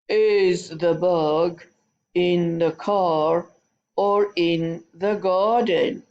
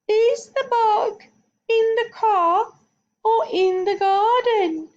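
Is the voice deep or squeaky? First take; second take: deep; squeaky. First: It is said in a deep, heavy voice. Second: It is said in a high, squeaky voice. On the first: "Let's use a rhino voice" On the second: "Let's use a squeaky voice"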